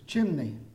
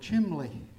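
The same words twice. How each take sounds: First: The middle consonant is an N sound. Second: The middle consonant is not an N sound. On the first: "I know how you pronounce it. It's chimney" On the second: "one word I used this morning"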